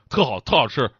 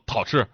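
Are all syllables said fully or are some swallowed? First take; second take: full; swallowed. First: Every syllable is pronounced fully. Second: The first syllables merge into one swallowed syllable.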